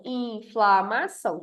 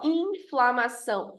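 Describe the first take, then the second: First: "inflamação" slowly in separate beats; syllable by syllable. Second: "inflamação" slowly, IN held long; drawn-out first syllable. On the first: Teacher counting four syllables, inflamação split into beats. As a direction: count out in, fla, ma, ção in inflamação. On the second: Teacher giving a polysyllable, inflamação slowly with long IN. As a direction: stretch the start of inflamação. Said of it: "Polissílaba". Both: Shown as a demonstration.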